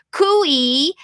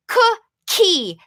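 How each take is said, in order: First: Cooey said with the k dropped; child's mispronunciation. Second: Cookie said higher, every sound clear; Cookie, put the k in the middle clearly; emphasized model word. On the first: Retold or imitated. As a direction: imitate a child saying cooey for cookie. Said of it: "they say cooey instead of cookie". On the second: Shown as a demonstration. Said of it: "say it slowly and a little bit more loudly".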